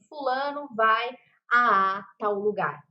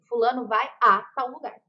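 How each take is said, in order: First: The two 'a' sounds are said separately, prolonged. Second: The two 'a' sounds merge into one sound. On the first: The speaker calls it wrong. "nós não falamos assim" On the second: The speaker calls it right. "nós falamos assim"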